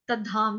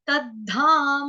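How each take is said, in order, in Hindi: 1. अंतिम म छोटा है, उसमें कोई स्वर नहीं। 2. अंतिम म पूरा है, उसके स्वर के साथ। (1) "गलती से होता है तद्धाम, तद्धाम। जब धाम हो जाएगा तो म हमारा हलंत हो होएगा" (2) "हमको धाम ऐसे गाना है"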